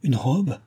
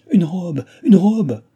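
First: Higher, half-disbelieving echo; hushed joyful disbelief beside a shout; overcome with joy. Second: High, loud, rising excitement; delighted cry. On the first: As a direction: repeat it as if faint with joy. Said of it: "près de succomber à la joie". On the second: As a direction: cry it out with joy. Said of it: "cria Chon en battant des mains". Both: A narrator's reading.

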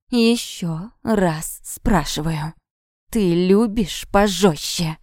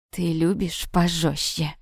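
First: Very slow, drawn-out threat; menacing repeat. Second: Low, slow, sinister question; demonic voice. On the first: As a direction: press each word slowly on the victim. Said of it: "повторил он". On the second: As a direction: draw it out like a demon, menacingly. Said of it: "демоническим голосом спросил он". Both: A narrator's reading.

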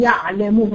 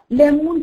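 First: "يعلمون" with a mid-throat ayn; higher-placed ayn. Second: "يألمون" with a glottal stop, raised pitch; lower hamza. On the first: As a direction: place the ع of "يعلمون" above the hamza. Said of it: "هتلاقيها فوق". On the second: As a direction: set the hamza of "يألمون" deep in the throat. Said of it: "أبعد أو تحت". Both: Shown as a demonstration.

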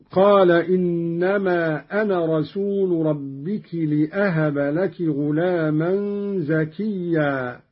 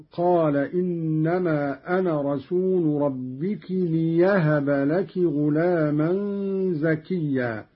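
First: Said in the usual way. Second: ليهب said as "li-yahaba", with no glottal stop; ya replacing hamza. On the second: Shown as a demonstration. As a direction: glide on a y into ليهب. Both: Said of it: "قرأ قالون بالياء بدل الهمز".

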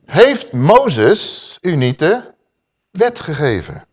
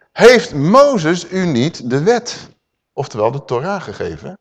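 First: Very slow, drawn out; repeated slow question. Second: Very slow, stretched out, fading at the end; drawn-out rhetorical question. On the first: Preacher repeating Yeshua's question to the Sanhedrin, drawn out. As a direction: linger on every word. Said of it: "nou even terug". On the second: Preacher voicing Yeshua questioning the Sanhedrin, slow and stretched. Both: Acted.

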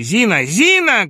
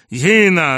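First: High, loud summons, second one higher; urgent calling out; shouted call. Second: Loud, higher call for help; scared holler; frightened yell. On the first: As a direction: shout for the maid, rising. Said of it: "кричал Бурменталь". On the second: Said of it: "орал испуганный Шариков". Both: A narrator's reading.

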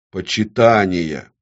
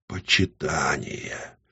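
First: Slow, firm single word; dictating an oath. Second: Slow, soft, lower echo; subdued repetition. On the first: Demon dictating the next word, slow and firm. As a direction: proclaim it for her to repeat. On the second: Woman echoing the demon's oath, subdued. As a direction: repeat it meekly. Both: A narrator's reading. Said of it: "Она должна была повторять".

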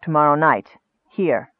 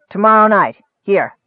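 First: Subdued echo, lower than the goblin; wizard confirming. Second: Lightly voiced goblin, forceful and louder; a hint of a goblin giving orders; goblin chief. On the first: Wizard repeating the goblin's terms, subdued. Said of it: "repeated Akar". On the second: Goblin chief setting the meeting with the wizard, forceful. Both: A narrator's reading.

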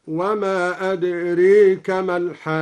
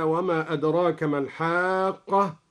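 First: أدريك with the long a leaned toward e, louder recitation; imala on adraka. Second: Said in the usual way. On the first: Shown as a demonstration. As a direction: bend the vowel of أدريك toward adreeka. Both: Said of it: "أمال أدراك هكذا".

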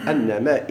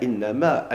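First: أنما starting with "a": annama; fatha reading. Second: إنما starting with "i": innama; kasra reading. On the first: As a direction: say أنما with an open first vowel. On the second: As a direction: say إنما with an i first vowel. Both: Shown as a demonstration. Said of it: "ديال الفتح والكسر".

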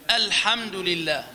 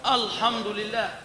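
First: "الحمد لله" opened on a light, thin "أ"; light hamza. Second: "الحمد لله" opened on a dark, thick "أ"; wrongly heavy hamza. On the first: Teacher models Quran reading, correctly light hamza. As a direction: say "الحمد لله" slowly with a front, unthickened first vowel. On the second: Teacher shows what not to say, heavy hamza. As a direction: say "الحمد لله" slowly with a backed, heavy first vowel. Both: Shown as a demonstration. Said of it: "ما قلت".

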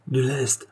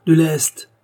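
First: Said in the usual way. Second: Higher, louder desperate cry for ballast; frantic shout for more ballast; urgent shout. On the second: Acted. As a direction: yell it out as the balloon falls.

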